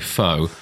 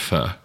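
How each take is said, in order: First: The word ends in an 'oh' vowel. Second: The word ends in an 'er' vowel. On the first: The speaker calls it wrong. "when people say faux" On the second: The speaker calls it right. "I say it's pronounced fur"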